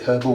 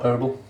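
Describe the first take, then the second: First: It begins with an audible H sound. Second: It begins with no H sound. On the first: The speaker calls it right. "with an H" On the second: The speaker calls it wrong. "not herbal"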